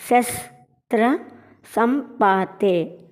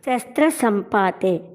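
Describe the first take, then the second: First: శస్త్ర సంపాతే slowly, piece by piece with pauses; split-up pronunciation. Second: Said in the usual way. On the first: Shown as a demonstration. Teacher drilling hard words, శస్త్ర సంపాతే slow and split. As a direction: break శస్త్ర సంపాతే into slow separate syllables. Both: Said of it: "కష్టమైన పదాలు పలుకుదాం".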